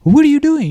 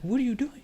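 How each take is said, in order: First: High, louder disbelieving question; incredulous inner thought. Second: Very soft, higher-pitched question; retold hushed question. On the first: Retold or imitated. Worker's thought at bystander untying rope, acted incredulous question. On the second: Worker eyeing bystander untying the rope, retold hushed question. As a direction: ask it under the voice, puzzled. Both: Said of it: "in my head I'm thinking".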